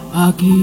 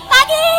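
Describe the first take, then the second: First: It is said in a deep, heavy voice. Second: It is said in a high, childlike voice.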